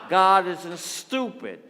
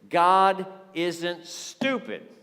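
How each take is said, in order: First: It is said in a thick New York accent. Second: It is said in a plain, neutral accent.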